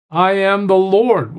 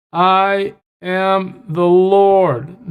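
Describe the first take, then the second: First: "I am the Lord" with a falling close on "Lord"; solemn declaration. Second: "I am the Lord" drawn out very slowly, each word weighted; slow emphatic declaration. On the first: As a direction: read "I am the Lord" as a firm statement. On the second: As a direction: stretch out "I am the Lord" to hammer it home. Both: Shown as a demonstration. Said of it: "He keeps emphasizing this to us".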